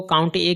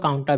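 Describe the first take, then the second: First: काउंट ए said as two words, count then a separate ए; काउंट ए with the ए as its own syllable; COUNTA as two parts. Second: काउंटा run together as one word ending in आ; काउंटा with no break before the final आ; COUNTA as one word. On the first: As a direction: split it: काउंट, then a clear ए. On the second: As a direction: blend it into a single word, काउंटा. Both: Shown as a demonstration. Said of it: "कुछ लोग जो है अलग-अलग तरीके से पढ़ते हैं".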